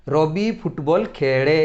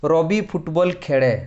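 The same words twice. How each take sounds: First: Very slow, drawing out the final ଏ of ଖେଳେ; ଖେଳେ with a long held final ଏ sound; stretched verb ending. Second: Slow, careful teacher read; slow example sentence. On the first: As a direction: lean on the ending of ଖେଳେ so pupils hear the ଏ. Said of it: "କ୍ରିୟା ଶେଷରେ କ'ଣ ଉଚ୍ଚାରଣ ହେଉଛି". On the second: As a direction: read the example out slowly and evenly. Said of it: "ଦେଖ ଉଦାହରଣ". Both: Shown as a demonstration.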